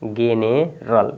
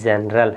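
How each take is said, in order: First: The word begins with a hard g sound. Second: The word begins with a j sound. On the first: The speaker calls it wrong. "अगर हम जी नहीं पढ़ ज नहीं पढ़ते तो इसको क्या पढ़ते हैं? गेनेरल" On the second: The speaker calls it right. "जी E N E R A L है तो जनरल पढ़ेंगे"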